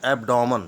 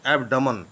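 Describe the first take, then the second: First: एब्डोमन with an open O sound in "डो"; mispronounced एब्डोमन. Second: एब्डमन with a schwa after the D, no O sound; correct Hindi pronunciation. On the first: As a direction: say एब्डोमन with a long "daw" middle syllable. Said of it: "तो ये गलत शब्द है". (एब्डोमन, बीच में लंबा "डॉ" बोलकर) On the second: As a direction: say एब्डमन with a short "duh" middle syllable. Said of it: "इसका सही उच्चारण है हिंदी में". (एब्डमन, बीच में छोटा "ड" बोलकर) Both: Shown as a demonstration.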